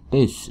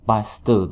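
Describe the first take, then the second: First: The word is said with a native English pronunciation. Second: The word is said with a local Indonesian pronunciation. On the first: The speaker calls it right. "tapi paste" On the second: The speaker calls it wrong. "jangan paste"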